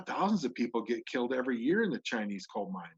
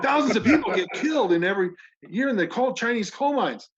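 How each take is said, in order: First: It is said calmly, without enthusiasm. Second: It is said with somewhat more enthusiasm. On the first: "Can you say that with more enthusiasm?" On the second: "No, more enthusiasm"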